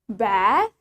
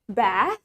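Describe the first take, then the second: First: The A vowel is long. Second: The same.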